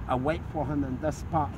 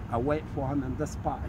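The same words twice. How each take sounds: The two takes are said the same way.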